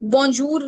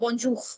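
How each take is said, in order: First: The final r is a tapped r. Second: The final r is a throaty, kh-like r. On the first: The speaker calls it wrong. "बॉन्जूर नहीं, र नहीं" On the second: The speaker calls it right. "ख होता है"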